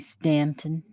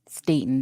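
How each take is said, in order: First: An N sound comes before the T. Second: No N sound comes before the T. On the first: The speaker calls it wrong. "I always put an N" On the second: The speaker calls it right. "There's no N"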